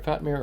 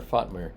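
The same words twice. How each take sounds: First: Fatmir with short "a" as in "fat"; first pronunciation of Fatmir. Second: Fatmir with open "ah" in the first syllable; alternative pronunciation of Fatmir. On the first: Streamer checking a viewer's name, Fatmir said like "fat-meer". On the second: Streamer offering another guess at a viewer's name, Fatmir said like "faht-meer". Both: Shown as a demonstration. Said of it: "did I pronounce that right".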